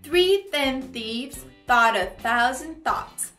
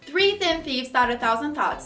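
First: It is said at a moderate pace. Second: It is said very fast.

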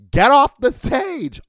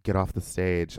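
First: It is screamed loudly. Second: It is said at a normal volume.

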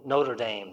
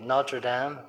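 First: It is said with an American accent. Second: It is said with a non-American accent.

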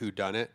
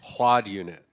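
First: It is said like 'who done it'. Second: It is said like 'quad unit'. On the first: The speaker calls it right. "it's a great whodunit" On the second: The speaker calls it wrong. "one of her friends pronounced it quad unit"

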